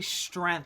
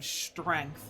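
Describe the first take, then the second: First: The word is said without a g sound. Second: The word is said with a g sound. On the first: "why do you say strength" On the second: "do I look like I got time to be slipping G's into places?"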